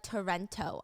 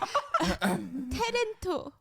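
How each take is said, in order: First: It is said without a Korean accent. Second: It is said with a Korean accent.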